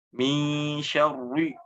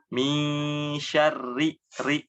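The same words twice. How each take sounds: First: Syarri with heavy, thick r; wrong thick r in syarri. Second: Syarri with light, thin r. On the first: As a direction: say syarri with a full, thick rolled r. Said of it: "Nah, ditebalkan". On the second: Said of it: "Nah, tipis". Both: Shown as a demonstration.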